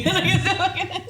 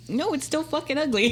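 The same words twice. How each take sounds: First: High, louder laugh through words; laughing hard. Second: High, laughing mock outrage; laughing disgust. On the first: Real, not acted. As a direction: burst out laughing on it. Repeats the line laughing harder. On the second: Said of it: "I was like".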